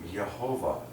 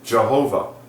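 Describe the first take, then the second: First: The name starts with a soft Y sound. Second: The name starts with a hard J sound. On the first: "You can even soften the J into a Y. Okay, like" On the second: "use his personal name"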